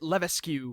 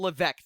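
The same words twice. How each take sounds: First: The S sound is clearly pronounced. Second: The S sound is left out. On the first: The speaker calls it wrong. "I would have pronounced it Levesque" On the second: The speaker calls it right. "The S is silent"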